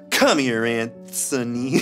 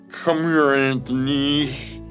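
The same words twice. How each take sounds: First: It is said in a clear voice. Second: It is said in a slurred voice.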